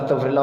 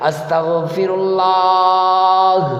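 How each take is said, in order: First: It is said quickly and casually. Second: It is said slowly and tenderly. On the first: The apology is made without real attention. The speaker calls it wrong. "इस्तिग़फ़ार ऐसे नहीं करना" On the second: The apology is sincere and heartfelt. The speaker calls it right. "प्यार के साथ"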